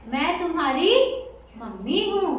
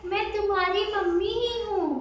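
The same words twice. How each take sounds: First: Lightly voiced wolf posing as mummy, fuller than the thin take; wolf's thick voice. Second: High, thin wolf pretending to be mother; thinned-out voice. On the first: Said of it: "तुम्हारी आवाज तो बड़ी मोटी है". (भेड़िये की हल्की-सी मोटी आवाज) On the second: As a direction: coax in a high mummy voice. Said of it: "अपनी आवाज पतली कर दी". (पतली, ऊँची बनावटी आवाज) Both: A narrator's reading.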